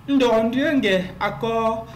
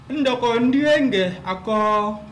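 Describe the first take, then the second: Both takes have the same delivery.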